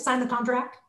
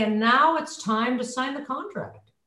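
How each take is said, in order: First: Pressured, breath-held close; under pressure, not breathing; holding the breath. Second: Slow, comfortable falling statement; relaxed, breath-supported close; nice easy breath. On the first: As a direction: say it on a held breath, ending upward. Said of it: "so if I'm holding my breath". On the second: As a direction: breathe first, then close unhurriedly. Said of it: "then with a nice breath". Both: Shown as a demonstration.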